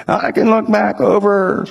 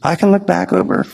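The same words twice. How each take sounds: First: Put-on slower, higher, creaky old man voice. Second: Said in the usual way. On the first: Old architect telling the pastor about his giving, old man voice. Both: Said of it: "he talked like this".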